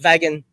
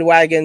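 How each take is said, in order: First: The word begins with a V sound. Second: The word begins with a W sound. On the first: "sometimes it'll come out as wagon" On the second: "like right now I said wagon"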